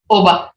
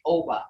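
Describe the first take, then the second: First: Oba with a short pure o, no glide; correct Creek Oba. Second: Oba with a gliding English oh, like oh-buh; mispronounced Oba, the O drawn into an English diphthong; wrong English Oba. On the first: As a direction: say Oba with a clean, unslid o. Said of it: "hear that?". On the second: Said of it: "And that's not correct". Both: Shown as a demonstration.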